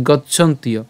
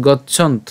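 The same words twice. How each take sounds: First: গচ্ছন্তীয় run on into a "ti-yo" ending; joined-up pronunciation. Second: গচ্ছন্ত cut off on a vowelless final t; stops at T. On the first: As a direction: say গচ্ছন্তীয় whole, slowly, as gacchant-iyo. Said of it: "পুরোটা যদি একসাথে উচ্চারণ করি". (গচ্ছন্তীয়, শেষে ইয় জুড়ে একসাথে উচ্চারণ) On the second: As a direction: say গচ্ছন্ত as "gacchant", no vowel after t. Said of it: "ত হসন্ত পর্যন্ত নিয়ে আসলাম". (গচ্ছন্ত, ত হসন্তে থেমে) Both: Shown as a demonstration.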